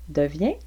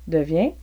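Both takes have the same delivery.

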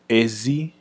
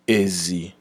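First: The second syllable has a high tone. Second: The second syllable has a low tone. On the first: It means outside. "is how we would pronounce it for outside" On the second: It means pig. "is how the tone will go for the word for pig"

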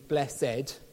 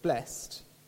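First: The word is said with two syllables. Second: The word is said with one syllable. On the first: It carries an old, deep sense of divine favor. "its archaic form of two syllables with an accent over the second E" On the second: It vaguely means feeling fortunate. "its modern pronunciation of blessed"

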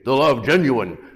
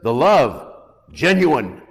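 First: It is said in a guttural Tarzan voice. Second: It is said in a normal voice.

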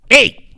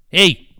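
First: The greeting sounds clearly hostile and annoyed. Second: The greeting sounds only mildly unfriendly.

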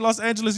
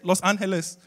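First: It is said with an English pronunciation. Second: It is said with a Spanish pronunciation. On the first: The speaker calls it wrong. "You're not supposed to say Los Angeles" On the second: The speaker calls it right. "You're supposed to say Los Angeles"

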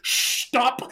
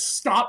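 First: It starts with an sh sound. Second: It starts with a plain s sound.

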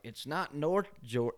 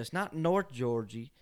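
First: The last word ends with an 'uh' sound. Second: The last word ends with an 'ee' sound. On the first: "instead of saying Georgia" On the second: "he says Georgie"

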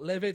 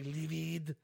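First: It is said with an English accent. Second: It is said with a French accent.

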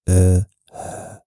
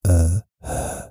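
No difference in how they are said.

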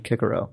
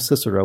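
First: The name begins with a hard K sound. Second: The name begins with a soft S sound. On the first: The speaker calls it right. "when it should be Kikero" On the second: The speaker calls it wrong. "pronounced his own name Cicero"

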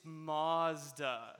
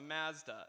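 First: The word is said with a condescending American pronunciation. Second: The word is said with a Canadian pronunciation. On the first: Others correct the speaker's pronunciation. "In this like condescending American exceptionalism" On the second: This is the speaker's own everyday way of saying it. "I said the car was a Mazda"

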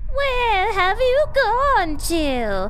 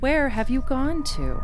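First: It is read in a put-on funny voice. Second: It is read in the speaker's normal voice.

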